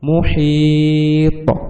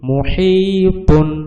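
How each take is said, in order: First: The word ends abruptly on a bouncing 't'. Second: The word ends with a full 'tun' syllable. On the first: The reader stops at this word. "ওয়াকফ করিলে মুহিত" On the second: The reader continues without stopping. "এইটা হচ্ছে নর্মাল"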